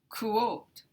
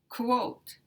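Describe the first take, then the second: No difference in how they are said.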